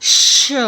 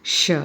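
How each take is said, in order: First: श hissed hard, with a strong rush of air; श as a strong airy sh; forceful sh. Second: श said gently, a relaxed soft sh with little air; श as a calm, gentle sh; soft sh sound. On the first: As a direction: push श out forcefully with lots of breath. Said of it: "उच्चारण ज़रा जोर दे के किया जाता है". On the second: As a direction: ease out श lightly and softly. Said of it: "इसको हम बड़े आराम से कहते हैं". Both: Shown as a demonstration.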